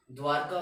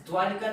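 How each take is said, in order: First: द्वारका with no i sound after र; correct form. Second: द्वारिका said with an i after र, as the wrong form. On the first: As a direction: say द्वारका cleanly, the right way. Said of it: "द्वारका होता है". (द्वारका, सही उच्चारण) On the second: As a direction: mark द्वारिका as the wrong pronunciation. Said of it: "द्वारिका नहीं होता". (द्वारिका, गलत उच्चारण) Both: Shown as a demonstration.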